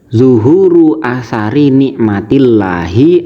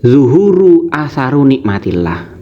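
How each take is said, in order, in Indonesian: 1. Kata 'atsar' berakhir dengan vokal i. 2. Kata 'atsar' berakhir dengan vokal u. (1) "Mestinya bacaannya" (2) "Asaru dibaca rofa"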